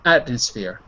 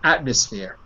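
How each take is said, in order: First: It is said quickly, the M sounding like N. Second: It is said quickly, the M sounding like N.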